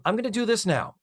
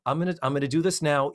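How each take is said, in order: First: Said in the usual way. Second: Fast, hurried repeat; quick aside. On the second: Real, not acted.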